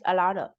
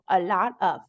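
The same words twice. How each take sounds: First: The word 'of' is reduced to 'uh'. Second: The word 'of' is said in full.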